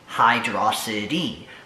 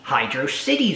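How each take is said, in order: First: The name ends like the word velocity. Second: The name ends like the separate word city. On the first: The name blends hydro with velocity. "a combination of the words hydro and velocity" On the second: The name joins hydro with city. "the Hydro City Zone wording"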